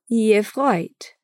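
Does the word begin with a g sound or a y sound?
y sound. The word begins with a y sound. "é dito no dialeto"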